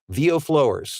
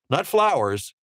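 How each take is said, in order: First: The first part sounds like the word flow. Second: The first part sounds like the word flour. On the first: The speaker calls it right. "flow dash E R S" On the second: The speaker calls it wrong.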